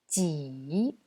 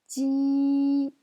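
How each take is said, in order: First: It is said with the third tone. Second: It is said with the first tone. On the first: "C'est le troisième ton" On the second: "c'est le premier ton"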